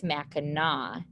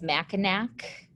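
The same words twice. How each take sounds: First: Mackinac ending in "aw", silent final C; correct pronunciation. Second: Mackinac ending in a hard K, "MACK-in-ack"; misread as spelled. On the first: Teacher gives students the correct way, Mackinac said as "MACK-in-aw". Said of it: "the correct way to pronounce that". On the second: Teacher shows the tempting misreading, Mackinac said as "MACK-in-ack". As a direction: say Mackinac as spelled, rhyming its end with "back". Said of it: "looks like it says Mackinac". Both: Shown as a demonstration.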